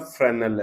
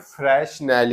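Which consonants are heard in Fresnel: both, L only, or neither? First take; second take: L only; both. First: The s is silent; the final l is sounded. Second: Both the s and the final l are sounded. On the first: The speaker calls it right. "तो ये बोलता फ्रेनल है" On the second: The speaker calls it wrong. "हम देखो इसे बोलते हैं फ्रेशनेल"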